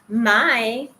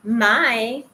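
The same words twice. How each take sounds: First: The pitch is high and rises slightly. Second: The same.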